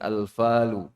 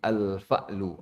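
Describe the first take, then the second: First: It is said without a glottal stop. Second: It is said with a glottal stop. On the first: The speaker calls it wrong. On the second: The speaker calls it right. "Ada hamzahnya"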